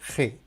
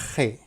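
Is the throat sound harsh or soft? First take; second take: harsh; harsh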